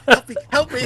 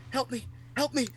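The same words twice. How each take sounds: First: High, loud plea broken by laughter; laughing mock plea. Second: Lightly voiced dad, high mock plea; mock plea for help. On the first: Retelling dad's prank while cracking up, laughing plea. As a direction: laugh through the fake cry for help. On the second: Dad faking an injury to prank his son, mock plea. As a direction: play the pretend injured dad, pitched up. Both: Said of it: "he goes".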